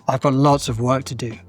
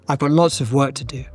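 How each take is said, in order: Both takes have the same delivery.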